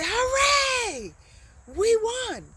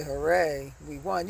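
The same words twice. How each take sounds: First: Hooray much higher and louder; excited hooray. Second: Said in the usual way. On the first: Shown as a demonstration. Teacher shows the right way to cheer a win, excited. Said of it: "You'd say". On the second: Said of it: "you wouldn't say".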